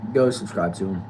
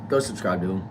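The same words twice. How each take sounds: The two takes are said the same way.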